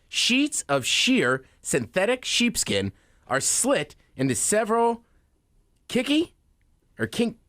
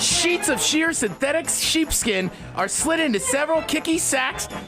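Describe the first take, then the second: First: It is said slowly. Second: It is said fast.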